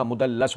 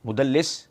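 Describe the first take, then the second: First: مدلس said "mudallas", ending in -las; corrected with a. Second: مدلس said "mudallis", ending in -lis; mispronounced with i. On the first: Giving listeners the right form, مدلس with an a. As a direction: say مدلس with a short final a. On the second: Repeating the wrong form to listeners, مدلس with an i. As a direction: say مدلس alone with a short final i. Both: Shown as a demonstration. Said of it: "نہیں ہوتا، مدلس ہوتا ہے".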